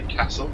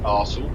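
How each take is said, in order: First: It is said with a northern English accent. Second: It is said with a southern English accent. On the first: "if you're up north, you say Castle" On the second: "If you're down south, you have to put an R in it"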